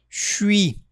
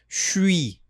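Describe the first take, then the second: Both takes have the same delivery.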